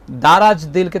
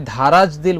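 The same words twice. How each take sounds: First: দারাজ with a plain, unaspirated d at the start; correct unaspirated D. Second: ধারাজ with a breathy dh at the start; mispronounced aspirated DH. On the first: Shown as a demonstration. Host corrects young singer's lyric, দারাজ with plain d. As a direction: say দারাজ, no puff of air after the d. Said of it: "ধারাজ দিল বলেছো". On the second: Retold or imitated. Host quotes singer's Chittagong slip, ধারাজ with aspirated dh. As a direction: say ধারাজ, puffing air after the d. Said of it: "এটা চট্টগ্রামের টান, একটু উচ্চারণে ভুল".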